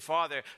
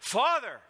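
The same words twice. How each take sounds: First: The word is said at a normal, quiet level. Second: The word is cried out in a loud voice. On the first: "he just didn't say" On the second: "he cries out"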